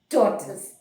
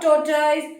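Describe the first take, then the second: First: The word is said in the recommended way. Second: The word is said in the commonly heard way. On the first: The speaker calls it right. "it is tortoise" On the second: The speaker calls it wrong. "it is not tortoise"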